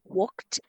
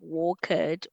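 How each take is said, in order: First: The ending is said as a short 't' sound. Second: The ending is said as an extra 'id' syllable. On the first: The speaker calls it right. "we pronounce them as T" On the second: The speaker calls it wrong. "instead of saying walked"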